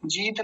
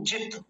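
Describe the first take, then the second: First: जीत with a drawn-out ee; long vowel mistake. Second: जित with a quick short i, cut off at the t; short vowel. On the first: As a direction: stretch the vowel of जीत as the wrong example. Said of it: "जीत नहीं". (जीत, लंबी ई खींचकर) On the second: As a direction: keep जित brief, no stretching. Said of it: "लंबा नहीं खींचेंगे". (जित, छोटी इ, झट से) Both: Shown as a demonstration.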